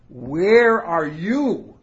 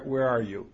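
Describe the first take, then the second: First: It sounds like an exclamation of wonder. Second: It sounds like a searching question.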